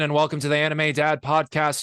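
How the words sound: It is said as a Jesse Pinkman impression.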